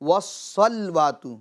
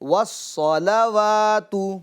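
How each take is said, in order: First: The L has no vowel after it. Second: The L is followed by an 'a' vowel. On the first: The speaker calls it wrong. "जो लाम उस पर जबर है तो उसको सुकून में बदल देते हैं" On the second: The speaker calls it right. "लाम पर जबर है"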